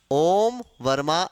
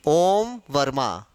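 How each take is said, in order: First: ओम वर्मा ऐसा लिखेगा said slowly and lower; slow, lower reading. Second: Om Verma said slowly; slow careful reading. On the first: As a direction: spell out how he writes it, slowly. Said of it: "वो अपना नाम". (धीमी, नीची आवाज़ में समझाना) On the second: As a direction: read the name out slowly, word by word. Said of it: "तो हम कैसा लिखेगा?". (धीरे-धीरे नाम पढ़ना) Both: Shown as a demonstration.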